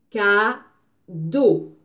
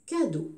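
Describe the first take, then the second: First: Cadeau split into ca-deau, slow and louder; syllable by syllable. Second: Said in the usual way. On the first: Shown as a demonstration. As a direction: chop Cadeau into two clear syllables. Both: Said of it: "On a bien découpé les syllabes".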